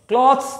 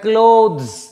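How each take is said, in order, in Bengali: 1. স্বরধ্বনিটি ছোট, 'cloth'-এর মতো। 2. স্বরধ্বনিটি লম্বা, 'close'-এর মতো। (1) "ক্লথস নয়" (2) "এটা ক্লোথস"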